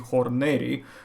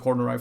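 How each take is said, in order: First: The name is said with Latin pronunciation. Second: The name is said with English pronunciation. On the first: "in the Latin pronunciation it should be horneri" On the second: "we will call it Horneri for the English speaking"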